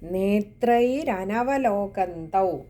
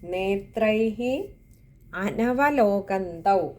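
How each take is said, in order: First: The two words run together with an r sound. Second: The two words are split with a hi ending. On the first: "രണ്ട് വാക്കുകൾ ചേരുന്നതാണ് നേത്രൈരനവലോകന്തൗ" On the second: "ഇങ്ങനെ രണ്ട് വാക്കുകൾ"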